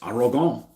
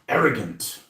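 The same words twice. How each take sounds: First: It is said in a put-on French accent. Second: It is said in a plain English accent.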